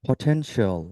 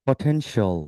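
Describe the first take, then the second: Both takes have the same delivery.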